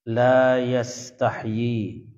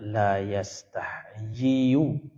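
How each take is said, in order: First: The verb ends on a long 'i' sound. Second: The verb ends with an added 'yu' syllable. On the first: The speaker calls it right. "Yastahyi panjang" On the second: The speaker calls it wrong. "tidak dibaca yastahyiyu"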